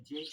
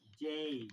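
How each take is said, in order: First: जे said short and clipped, vowel not stretched; short जे, the mistake to avoid; wrong way. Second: जे with the ए वाई vowel drawn out long; long drawn-out जे, the right way; stretched vowel. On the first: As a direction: say जे quickly the wrong way. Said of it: "गलत". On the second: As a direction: pull out the vowel in जे. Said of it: "इसको लंबा खींचना है". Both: Shown as a demonstration.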